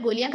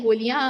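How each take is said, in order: First: Said in the usual way. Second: गोलियां punched loud with a rising end; stress on गोलियां. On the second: Acted. Ali teasing Umar about taking bullets, stressing गोलियां. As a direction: hit the word गोलियां hard, teasing. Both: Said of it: "Ali ने लफ्ज गोलियां पर जोर दी".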